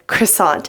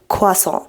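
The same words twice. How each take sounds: First: It is said with an American English pronunciation. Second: It is said with a French pronunciation. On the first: "because I pronounce it like the good old American I am" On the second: "en français, faut prononcer comme"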